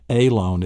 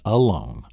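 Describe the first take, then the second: First: "alone" said "AY-lone", long A first; mispronounced alone. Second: "alone" said "uh-LONE"; schwa in alone. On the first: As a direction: open "alone" on a full "ay" sound. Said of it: "it's not". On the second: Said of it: "so it's a schwa". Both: Shown as a demonstration.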